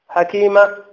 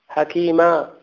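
First: The final vowel is held for one count. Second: The final vowel is held for two counts. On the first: The speaker calls it wrong. "هذه حركة" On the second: The speaker calls it right. "حركتين"

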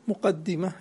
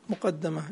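First: The doubled d is followed by an i vowel. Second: The doubled d is followed by an a vowel. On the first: It puts its owner ahead of their peers. "مقدمة اسم فاعل" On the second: It is a way into the longer books. "مقدمة اسم مفعول"

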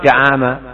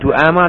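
First: The first syllable has the vowel a. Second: The first syllable has the vowel u. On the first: "atau Da'ama" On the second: "Biar enggak dibaca Du'ama"

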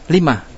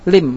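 First: It ends with an added h sound. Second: It ends abruptly without an added h sound. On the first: The meaning is clear to the listener. The speaker calls it right. "berbeda ketika antum datangkan hasakta" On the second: The listener may not understand the meaning well. The speaker calls it wrong. "Kalau enggak datang hasakta, kita wakob menjadi lim"

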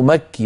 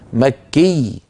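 First: The final doubled letter is said weakly. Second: The final doubled letter is pressed strongly. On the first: The speaker calls it wrong. "لا يصح أن تقول" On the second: The speaker calls it right. "عليه أن يشدد ... بل تقول"

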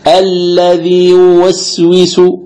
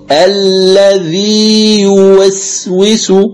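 First: The long vowel is held only briefly, under two counts. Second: The long vowel is held two counts without merging. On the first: The speaker calls it wrong. "يمدها قليلا ثم ينطق بالياء المتحركة" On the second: The speaker calls it right. "أن تمكن المد دون إدغام"

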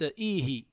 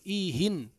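First: The word ends without an n sound. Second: The word ends with an added n sound. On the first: It asks for more of the specific talk. "إيه أي زدي من الكلام" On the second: It asks for any talk, not a specific one. "منونا"

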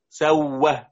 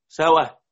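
First: The middle consonant is doubled and held longer. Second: The middle consonant is single, not doubled.

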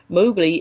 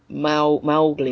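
First: The first syllable rhymes with show. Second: The first syllable rhymes with cow. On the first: The speaker calls it wrong. "Mowgli is pronounced wrong" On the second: The speaker calls it right. "the first syllable of Mowgli's name rhymes with cow rather than show. So it's Mowgli"

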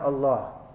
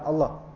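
First: The vowel between l and h is lengthened. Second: The vowel between l and h is short. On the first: The speaker calls it right. "Yang benar Allah" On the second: The speaker calls it wrong. "Bukan Allah. Salah kan?"

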